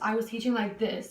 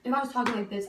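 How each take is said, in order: First: It is said slowly. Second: It is said very fast.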